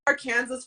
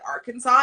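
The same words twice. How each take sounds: First: The ending sounds like the word Kansas. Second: The ending sounds like the word saw. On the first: The speaker calls it wrong. "I thought it was Arkansas for a long time" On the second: The speaker calls it right. "a show that said Arkansas"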